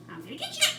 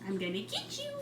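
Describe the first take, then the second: First: Much higher playful sing-song; talking to a bird. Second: Said in the usual way. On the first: Real, not acted. Playful threat to bird, high take.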